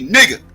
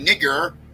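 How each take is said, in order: First: The word ends with an a sound. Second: The word ends with an er sound. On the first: "we say A's" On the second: "we don't say E R's"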